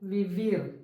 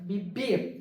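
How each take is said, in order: First: The word begins with a v sound. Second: The word begins with a b sound. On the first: The speaker calls it wrong. "നമ്മൾ normally think ചെയ്യണത് എന്താണ്?" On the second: The speaker calls it right. "നമ്മുടെ ബോയിയുടെ ബിയിലാണ് നമ്മളത് പ്രൊനൗൺസ് ചെയ്യേണ്ടത്"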